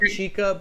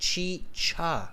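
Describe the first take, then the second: First: The middle consonant is a hard k sound. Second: The middle consonant is a ch sound. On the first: The speaker calls it wrong. "not chica" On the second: The speaker calls it right. "but chicha"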